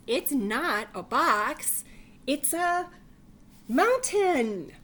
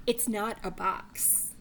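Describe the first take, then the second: First: Slow, loud and high, proud of the mountain; loud insisting bunny. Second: Said in the usual way. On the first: Acted. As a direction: belt it out like a proud little bunny. Bunny insists in read-aloud story.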